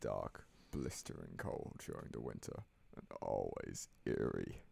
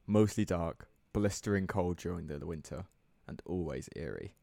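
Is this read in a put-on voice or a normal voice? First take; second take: put-on; normal. First: It is read in a strained put-on voice. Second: It is read in his ordinary speaking voice.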